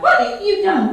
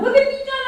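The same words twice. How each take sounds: First: High, frantic insect voice; tiny mosquito shrieking in alarm; buzzing mosquito. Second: Even higher, more frantic insect squeal; panicked mosquito voice climbing higher; shriller mosquito. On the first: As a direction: squeak it out like an outraged little bug. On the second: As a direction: push the pitch up further in panic. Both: A narrator's reading. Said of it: "Mosquito was all in a tizzy".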